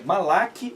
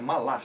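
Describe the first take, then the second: First: The word ends in a plain, hard k sound. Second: The word ends in a raspy throat sound. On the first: "É Malak" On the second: "mas a pronúncia é gutural"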